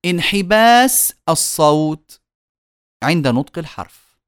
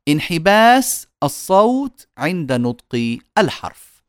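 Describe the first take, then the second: No difference in how they are said.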